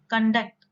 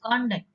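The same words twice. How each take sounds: First: Con-DUCT, weak first syllable; "conduct" stressed on DUCT; stress on second syllable. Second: CON-duct, with a full O; "conduct" stressed on CON; stress on first syllable. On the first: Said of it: "stress in the second syllable". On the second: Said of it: "give a stress in the first syllable". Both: Shown as a demonstration.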